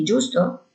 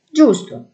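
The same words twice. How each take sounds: First: Giusto? asked with a rising tune at the end; giusto? as a leading question. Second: Giusto. said firmly with a falling tune; Giusto. as a firm agreement; confirming tone. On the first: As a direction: check for agreement, voice lifting on giusto?. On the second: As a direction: settle it, voice dropping on Giusto. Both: A narrator's reading.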